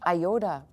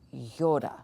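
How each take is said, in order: First: It begins with an 'eye' vowel sound. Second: It begins with a 'y' consonant sound. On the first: This is the English-style pronunciation. The speaker calls it wrong. "I'm going to say it the way we have grafted it into our English" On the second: This is the Greek pronunciation. The speaker calls it right. "the way you say it in Greek"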